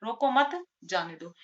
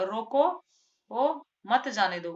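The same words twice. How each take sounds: First: रोको मत as one unit, break, जाने दो; pause after मत. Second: रोको left hanging, then मत जाने दो; long break after रोको, मत जाने दो in one go; pause after रोको. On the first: Teacher repeats the let-him-go reading, pause after मत. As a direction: keep मत with रोको, then pause. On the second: Teacher repeats the stop-him reading, long pause after रोको. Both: Shown as a demonstration. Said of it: "दो तरह से".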